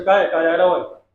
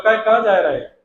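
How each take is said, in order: First: Lightly put-on Chambal Hindi; a touch of Chambal accent, ending on a falling tune; Chambal dialect. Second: Louder Bhind-accented question, falling at the end; lightly put-on Bhind Hindi, pushed louder; Bhind dialect. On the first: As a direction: ask it with a hint of Chambal speech. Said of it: "Chambal division की भाषा". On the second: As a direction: ask it forcefully in a Bhind accent. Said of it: "Bhind पहुँच जाओ". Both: Shown as a demonstration.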